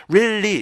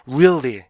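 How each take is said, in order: First: "really" as flat two-beat rilli; doubled L, no glide in "really"; non-native REALLY. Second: "really" as ree-ul-lee with a glide; native REALLY. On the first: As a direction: mimic a learner reading "really" as "rilli". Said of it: "이렇게 있는 원어민은 없어요". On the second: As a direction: pitch rises and falls inside "really". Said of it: "이렇게 읽게 되는 거지". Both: Shown as a demonstration.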